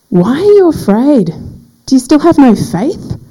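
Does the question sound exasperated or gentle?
exasperated. The question sounds harsh and exasperated. The questioner is annoyed with the listeners. "has sounded a bit harsh"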